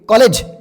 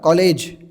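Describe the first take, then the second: First: The second syllable's vowel is short. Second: The second syllable's vowel is lengthened. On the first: The speaker calls it wrong. "कॉलेज नाही म्हणा" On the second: The speaker calls it right. "कॉलेज ले ले वाढतोय"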